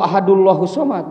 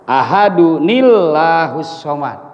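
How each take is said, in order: First: No extra 'n' sound links the two words. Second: An extra 'nil' sound links the two words. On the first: The speaker calls it wrong. "tidak bisa" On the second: The speaker calls it right. "Ya begitu"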